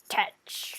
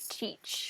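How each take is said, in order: First: The vowel is short, rhyming with fetch. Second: The vowel is long, rhyming with beach. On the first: The speaker calls it wrong. "I was always saying Tetch" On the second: The speaker calls it right. "Edward Teach, rhymes with beach"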